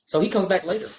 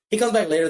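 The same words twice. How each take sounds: First: Said in the usual way. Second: "comes" said louder and higher, falling at the end; stress on comes. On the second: Shown as a demonstration. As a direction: hit "He comes back later" harder the second time.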